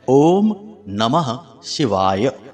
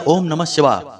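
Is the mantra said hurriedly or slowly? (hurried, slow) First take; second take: slow; hurried. First: The words are said slowly with every syllable full. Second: The words are rushed and run together quickly. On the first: The speaker calls it right. "इस प्रकार से आपको पूर्ण उच्चारण करना है।" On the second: The speaker calls it wrong. "जल्दबाजी में ओम नमः शिवाय, ओम नमः शिवाय ऐसे नहीं करना है।"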